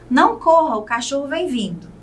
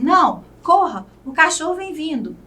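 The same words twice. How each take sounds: First: There is no pause between não and corra. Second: There is a pause right after não.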